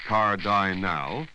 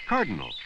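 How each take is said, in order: First: "cardinal" slow with a long "eye" in the middle, car-DIE-nal; wrong pronunciation demo. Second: "cardinal" as CAR-duh-nul, last two vowels reduced to "uh"; correct pronunciation. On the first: Teacher shows the wrong "cardinal" learners should avoid. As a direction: sound out "cardinal" with a full "eye". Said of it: "You wouldn't say". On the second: Teacher models the right "cardinal" for learners. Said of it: "You'd say cardinal". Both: Shown as a demonstration.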